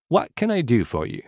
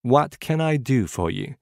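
First: Said in the usual way. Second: What can I do for you? said slower, words spaced; slower repetition. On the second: Shown as a demonstration. Teacher modelling the phrase slowly for repetition. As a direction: give it again, slower and clearer. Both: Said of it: "Écoutez et répétez après moi".

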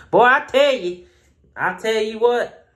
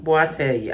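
First: Hammed-up country accent. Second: Slipped into country accent. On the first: Shown as a demonstration. Reviewer mocking his own country accent, hammed-up. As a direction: ham up the country accent on purpose. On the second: Real, not acted. Reviewer slipping into country accent on camera. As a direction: let a little country accent slip out. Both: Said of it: "my country accent just came out".

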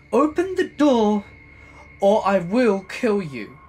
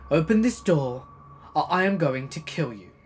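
First: High, loud screaming threat, slowing down; furious screaming. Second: Loud threatening shout; angry shouting. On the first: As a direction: scream it with rage, dragging the end. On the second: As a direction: yell it through the door. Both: Retold or imitated. Neighbor threatening through door.

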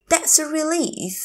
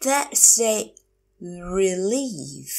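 First: Said in the usual way. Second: That's a, long pause, drawn-out "relief"; slow teacher model of "That's a relief"; slow, broken up. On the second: Shown as a demonstration. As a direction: stretch "relief" after a clear gap. Teacher repeats phrase slowly.

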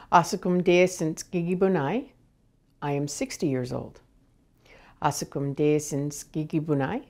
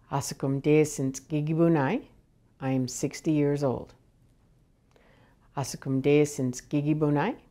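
No difference in how they are said.

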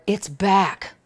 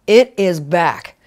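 First: Said in the usual way. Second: "It is back" slow, each word weighted, stress on "is"; slow emphatic "It is back"; emphatic repeat. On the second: Shown as a demonstration. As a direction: lean on "is" to insist.

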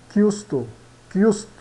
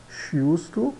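First: CHIUSTO with a hard K, "KYOO-sto"; Italian pronunciation. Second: CHIUSTO with a SH sound, "shee-usto"; read as spelt. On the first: Teacher models Italian, CH in chiusto as K. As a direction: open chiusto with K, falling. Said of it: "São pronunciados como ki". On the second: Teacher shows learners the written word, CH as SH. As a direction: open chiusto with SH, rising. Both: Shown as a demonstration.

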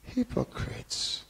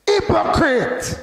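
First: Slow, hushed and higher, mock-gentle; soft, mild reproach. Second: Slow, high, loud shout; forceful rebuke. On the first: Preacher showing how Jesus wasn't saying it, soft and mild. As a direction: say it feebly, softly and slowly. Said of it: "he wasn't saying". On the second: Preacher showing how Jesus rebuked hypocrites, forceful shout. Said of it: "No, he said". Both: Shown as a demonstration.

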